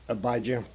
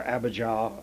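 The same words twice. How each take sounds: First: Abijah said a-BYE-juh, stress on BYE; one way to say Abijah. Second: Abijah said AB-uh-jah, stress on AB, open jah; the other way to say Abijah. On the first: Bible teacher giving one pronunciation of the name, a-BYE-juh. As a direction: say Abijah as a-BYE-juh with a weak last syllable. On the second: Bible teacher giving the other pronunciation, AB-uh-jah. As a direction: say Abijah as AB-uh-jah, ending on a full jah. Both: Shown as a demonstration. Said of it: "So whether you say".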